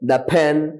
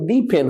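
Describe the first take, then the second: First: 'The' is said with a short 'uh' vowel. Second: 'The' is said with a long 'ee' vowel. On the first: The speaker calls it right. "এটা হবে কি, দা। এখানে সবগুলো দা হবে।" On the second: The speaker calls it wrong. "দি ফেন হবে না"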